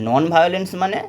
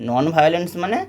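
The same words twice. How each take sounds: The two takes are said the same way.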